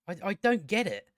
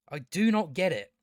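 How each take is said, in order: First: Said in the usual way. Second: Each word of "do not" said separately; stress on NOT. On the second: Real, not acted. Baffled reviewer insisting he doesn't get it, emphatic "do not". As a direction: spell out "do not" firmly. Emphatic restatement of previous line.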